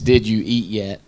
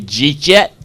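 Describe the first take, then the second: First: Each word is said separately and fully. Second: The words are slurred together into one short word.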